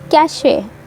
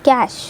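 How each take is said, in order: First: The word ends with a 'shay' vowel sound. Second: The word ends plainly with a 'sh' sound. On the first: The speaker calls it wrong. "ये wrong है" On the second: The speaker calls it right. "हम इसको पढ़ते हैं कैश"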